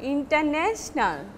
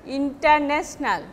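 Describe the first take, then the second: First: "international" with the main stress on NA; correct English stress. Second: International said the everyday Benglish way, evenly weighted; Benglish pronunciation. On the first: Teacher correcting Benglish international, stressing NA. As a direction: lean on and lengthen the NA in "international". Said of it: "but it will be". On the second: Teacher showing students the Benglish international, Bengali-accented. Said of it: "in our Benglish way". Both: Shown as a demonstration.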